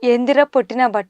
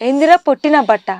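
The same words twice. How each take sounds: First: The line is read plainly, without character. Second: The line is acted fully in the character's slang. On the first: The speaker calls it wrong. "అలా కాదు. Own చేసుకోవాలి" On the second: The speaker calls it right. "సినిమాలో ఎలా చెప్పారో అలా చెప్పాలి"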